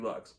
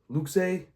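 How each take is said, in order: First: The word is said as one syllable. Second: The word is said as two syllables. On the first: The speaker calls it right. "It's got to be Lux" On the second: The speaker calls it wrong. "It's not Luke's"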